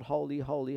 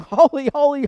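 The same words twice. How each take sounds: First: Said in the usual way. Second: Loud, high ringing cry of Holy; angels crying holy. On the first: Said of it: "seraphim cry out". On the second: Acted. Seraphim crying to each other before the throne, loud and ringing. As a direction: call it out like the seraphim. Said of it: "they're saying".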